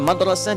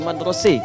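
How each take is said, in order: First: The vowel is an open a sound. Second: The vowel is tilted toward an e sound. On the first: This is the common reading. "Kita madrasah" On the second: This is the reading of regions near Syria. "itu sering pakai imalah"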